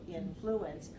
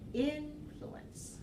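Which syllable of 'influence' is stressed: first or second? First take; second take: second; first. First: The stress is on the second syllable. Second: The stress is on the first syllable. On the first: A way only some people say it. "some people who say influence with the second syllable" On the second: The way most people around here say it. "I pronounce it with the stress on the first syllable"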